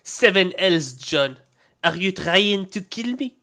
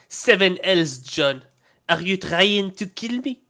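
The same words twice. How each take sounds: First: It is spoken in a French accent. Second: It is spoken in a French accent.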